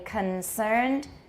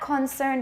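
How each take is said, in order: First: The first syllable has a short, weak vowel. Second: The first syllable has a full, strong vowel. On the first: The speaker calls it right. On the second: The speaker calls it wrong. "not concerned"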